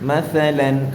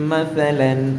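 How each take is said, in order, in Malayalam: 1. ഈ വ്യഞ്ജനം മൃദുവായ th ആണ്, നാവ് പല്ലുകൾക്കിടയിൽ. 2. ഈ വ്യഞ്ജനം മൃദുവായ th ആണ്, നാവ് പല്ലുകൾക്കിടയിൽ.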